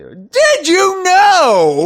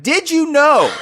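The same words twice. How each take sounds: First: Drawn-out, very high, booming shout; even louder announcement. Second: High-pitched mock-announcer shout; loud announcement. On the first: Pretend. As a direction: bellow it slowly, stretching every word. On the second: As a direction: shout it out like a trivia fanfare. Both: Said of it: "say that loud enough".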